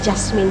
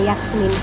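First: The middle consonant is a voiceless s sound. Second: The middle consonant is a voiced z sound. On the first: This is how people back home read it. "Dyan sa atin, jas" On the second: This is how people here read it. "ang basa nila sa Z"

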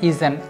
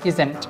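First: A short vowel is heard between z and nt. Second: A short vowel is heard between z and nt.

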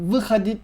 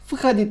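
First: The word begins with a voiced v sound. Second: The word begins with a voiceless f-like sound. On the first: The speaker calls it wrong. "vychodit değil de" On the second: The speaker calls it right. "biraz daha f gibi söylüyoruz"

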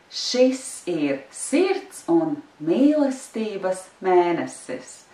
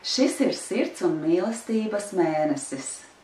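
First: It is said moderately fast. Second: It is said at a fast pace.

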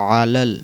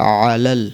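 The two takes are said the same way.

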